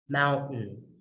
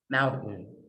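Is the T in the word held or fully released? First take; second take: held; held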